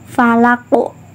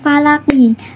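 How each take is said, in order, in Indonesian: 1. Kata ini berakhir dengan hentian pantul yang berat. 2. Kata ini berakhir dengan vokal 'i' penuh. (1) "berhenti sejenak, huruf qafnya dipantulkan berat" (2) "bukan falaki"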